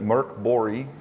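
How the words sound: The name is said with a Swedish pronunciation.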